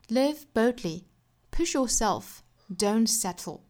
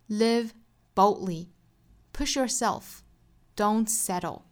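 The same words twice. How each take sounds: First: It is read in a British English accent. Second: It is read in an American English accent. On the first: "首先是英音版" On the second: "美音"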